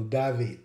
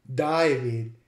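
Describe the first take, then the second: First: David as "dah-VEED"; original David. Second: David as "DIE-vid"; Australian David. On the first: Lecturer comparing with the original, David as dah-VEED. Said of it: "closer to the original David". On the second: Lecturer comparing forms, David the Australian DIE-vid. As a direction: say David with an "eye" vowel. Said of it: "an Australian speaker would pronounce". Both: Shown as a demonstration.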